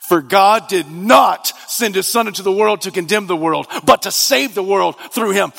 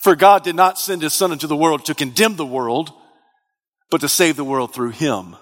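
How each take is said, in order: First: Forceful verse with heavy weight on "not"; stress on "not". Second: Said in the usual way. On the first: Shown as a demonstration. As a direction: hit the word "not" emphatically, then set it apart. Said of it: "This is the most em-, emphatic way".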